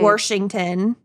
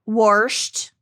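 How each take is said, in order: First: The word sounds like Washington. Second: The word sounds like Warsht. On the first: This is the usual way of saying it. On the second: This is how the grandfather said it.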